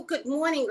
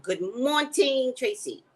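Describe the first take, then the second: First: Said in the usual way. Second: Good morning drawn out slowly, a bit higher; slow, sung-out "Good morning, Tracy"; drawn-out greeting. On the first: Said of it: "my throat drops and it doesn't come out right". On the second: Shown as a demonstration. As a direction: stretch "morning" out slowly like a radio host. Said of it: "Does that sound a little better?".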